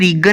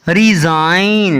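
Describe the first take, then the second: First: The word has a hard g sound. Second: The word has no hard g sound. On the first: The speaker calls it wrong. "ना कि रिगन नहीं पढ़ना" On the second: The speaker calls it right. "इसको रिजाइन पढ़ना है"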